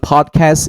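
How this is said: It is said in an American accent.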